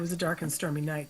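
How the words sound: It is read in a flat voice.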